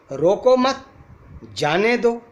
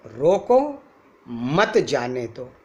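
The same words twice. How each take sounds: First: रोको मत together, pause, then जाने दो; high phrasing, break between मत and जाने; comma after मत. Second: रोको raised, pause, then मत जाने दो lower; comma after रोको. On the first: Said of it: "comma हटा के "मत" के आगे लगाते हैं". (रोको मत के बाद विराम, फिर जाने दो) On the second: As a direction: break after रोको, keep मत जाने दो together. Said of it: "रोको" के बाद कॉमा लगा देते हैं". (रोको के बाद विराम, फिर मत जाने दो) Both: Shown as a demonstration.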